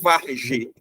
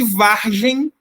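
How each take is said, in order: First: The word is said without a final M. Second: The word is said with a final M. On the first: "sem M" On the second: "com M"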